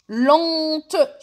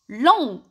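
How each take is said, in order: First: LENTE stretched loud, then a released T; sounded final T. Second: "Long" as French lent, open nasal ending; silent final T. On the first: Teacher showing the feminine, LENTE with its T pronounced. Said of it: "هاد التي وليت ننطقه". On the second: Teacher repeating the masculine adjective, "Long" with the T silent. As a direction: say "Long" without any final T. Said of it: "هاد تي تاني ما رانيش ننطقه". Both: Shown as a demonstration.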